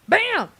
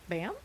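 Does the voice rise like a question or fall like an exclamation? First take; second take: exclamation; question. First: It falls like an excited exclamation. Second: It rises like a question.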